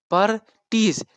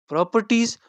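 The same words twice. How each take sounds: First: "properties" broken into pro, per, ties; syllable by syllable. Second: Said in the usual way. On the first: Shown as a demonstration. Teacher showing students the syllables, "properties" said syllable by syllable. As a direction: say "properties" in separate raised beats with pauses. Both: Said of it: "properties में हमारे पास बन रहे हैं".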